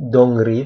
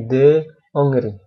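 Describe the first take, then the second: First: The 'de' is merged into the name. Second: The 'de' is kept as its own syllable. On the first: The speaker calls it wrong. "bukan Dongri" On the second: The speaker calls it right. "tapi les ambassades de Hollande et de Hongrie"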